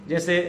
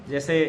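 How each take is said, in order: The two takes are said the same way.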